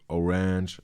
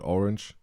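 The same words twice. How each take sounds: First: The word is dragged out and lengthened. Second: The word is said at normal length.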